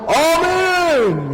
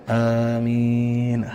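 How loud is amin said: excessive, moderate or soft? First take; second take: excessive; soft. First: It is shouted overly loud and emotionally. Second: It is said weakly and softly. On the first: "Tapi tidak juga sampai berlebihan" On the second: "jangan amin. Tong leuleus"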